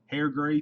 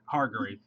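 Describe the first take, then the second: First: The name starts with 'hair' and ends 'gray'. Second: The name starts with 'har' and ends 'grave'. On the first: The speaker calls it wrong. "I always say hair gray" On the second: The speaker calls it right. "There's no I in there"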